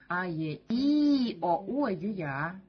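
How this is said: The third vowel is loud, the rest quiet. "Третья буква будет уже выделяться И"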